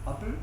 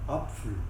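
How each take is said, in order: First: The middle consonant is a plain p. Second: The middle consonant is a pf sound. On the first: This is how it is said in Luxembourg. "à Luxembourg, on va dire pour une pomme" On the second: This is how it is said in Alsace. "vers l'Alsace, on va prononcer le T F, on va dire Apfel"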